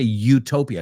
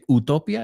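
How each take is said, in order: First: It is pronounced with English vowel sounds. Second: It is pronounced with Spanish vowel sounds. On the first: This is how English speakers say it. "We say utopia. La U la pronunciamos como U" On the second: This is how Spanish speakers say it. "I know you say utopia"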